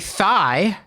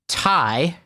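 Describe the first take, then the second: First: The word begins with a th sound. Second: The word begins with a plain t sound. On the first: The speaker calls it wrong. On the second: The speaker calls it right.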